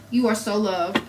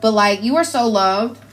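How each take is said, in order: First: Softer, tender repeat of the affirmation. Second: Said in the usual way. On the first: Real, not acted. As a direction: say it gently, like a blessing. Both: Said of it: "repeats the affirmation".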